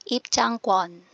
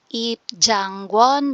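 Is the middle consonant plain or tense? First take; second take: tense; plain. First: The middle consonant is hard and tense. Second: The middle consonant is soft and plain. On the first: The speaker calls it right. "Walang hangin, matigas" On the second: The speaker calls it wrong. "instead na"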